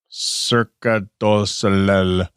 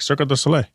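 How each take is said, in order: First: The name is said slowly and carefully. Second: The name is said fast.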